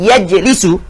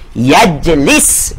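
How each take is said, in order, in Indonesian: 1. Kata ini berakhir dengan vokal u pendek. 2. Kata ini berakhir dengan konsonan s. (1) "asalnya hujungnya dibaca dengan baris depan" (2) "Hujungnya dibaca dengan baris ma baris mati"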